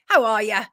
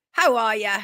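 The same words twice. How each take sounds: The two takes are said the same way.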